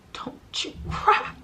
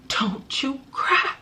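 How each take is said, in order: First: Slow, breathy melodramatic whisper; dramatic whisper. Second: Slow, hammed-up soap-opera plea; milk it like a tearful movie scene; melodramatic plea. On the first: Retold or imitated. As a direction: whisper it like a soap-opera deathbed line. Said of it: "Tyler Perry would have been so proud".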